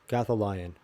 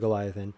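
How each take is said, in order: First: The name begins with the sounds Goth. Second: The name begins with the sounds Gol. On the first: The speaker calls it right. "I did say it wrong" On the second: The speaker calls it wrong. "am I saying that wrong?"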